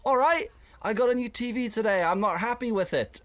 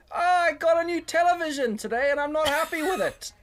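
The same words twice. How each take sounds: First: Mock chatty lean-in. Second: High, loud call to a noisy room; high, loud announcement to a crowded pub; mock loud announcement. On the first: Leaning into a small group. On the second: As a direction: blurt it out to nobody in particular.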